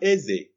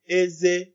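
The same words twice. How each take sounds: First: The tones are high then low. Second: The tones are high then high. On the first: It means king. "Which is high tone and low tone" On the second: It means teeth. "which is teeth, high tone and high tone"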